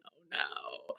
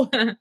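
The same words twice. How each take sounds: First: Breathless, whispered dismay. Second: Chuckled dismay; laughing oh no. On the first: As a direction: whisper it in quiet shock. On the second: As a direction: laugh through the words. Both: Retold or imitated. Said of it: "I was like".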